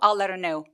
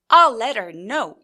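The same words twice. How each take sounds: First: The stressed words are pushed forward at level pitch. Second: The stressed words jump up and down in pitch. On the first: The speaker calls it right. "앞으로 그냥 미는 듯이 강세를 줄 때는 앞으로 미는 듯하게" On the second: The speaker calls it wrong. "강세를 줄 때 I'll let her know 이러지 않고"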